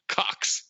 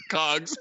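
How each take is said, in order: First: "Cocks" with a crisp k sound, not g; corrected pronunciation. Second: "cogs" with a voiced g sound in place of ck; mispronounced cocks. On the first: Retold or imitated. Bateman correcting cogs, says "Cocks" with a clear k. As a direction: correct it to "Cocks", hard ck before the s. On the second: Sudeikis mishearing her collection, says "cogs" with a g. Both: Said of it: "and Bateman corrects".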